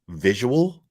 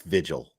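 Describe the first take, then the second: First: The word is said with three syllables. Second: The word is said with two syllables. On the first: The speaker calls it wrong. "There's a difference between th- three syllables and two. Visual is not what that is" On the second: The speaker calls it right. "It's vigil"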